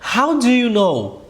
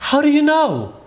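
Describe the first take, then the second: First: The phrase is spoken slowly. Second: The phrase is spoken quickly. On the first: "para você falar de forma mais lenta" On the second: "Para você falar de forma mais rápida"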